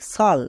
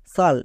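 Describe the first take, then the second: First: The ending starts with an sh sound. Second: The same.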